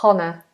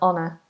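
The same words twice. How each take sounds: First: The word begins with an H sound. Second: The word begins without an H sound. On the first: The speaker calls it wrong. "You wouldn't say honor" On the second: The speaker calls it right. "It's just honest and honor"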